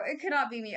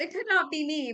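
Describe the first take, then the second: First: "could" leaned on, the rest lighter; stress on could. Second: "not" leaned on, the rest lighter; stress on not. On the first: Fortune teller repeating herself, hitting "could". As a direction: put the weight on "could" in "It could not be me". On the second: Fortune teller firmly refusing on "not". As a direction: put the weight on "not" in "it could not be me". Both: Shown as a demonstration.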